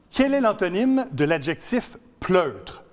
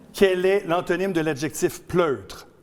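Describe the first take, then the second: No difference in how they are said.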